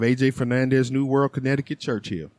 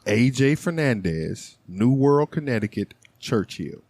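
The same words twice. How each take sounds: First: The names are read quickly. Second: The names are read slowly. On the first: The speaker calls it wrong. "You went really fast" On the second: The speaker calls it right. "Say that slower"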